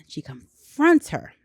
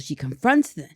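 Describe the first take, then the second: First: "confronts" said slowly and louder, each word weighted; slow it down and lean hard on "confronts"; emphatic restart. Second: Said in the usual way. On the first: Shown as a demonstration.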